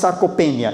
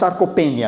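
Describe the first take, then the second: First: It is said with a European Portuguese pronunciation. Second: It is said with a European Portuguese pronunciation.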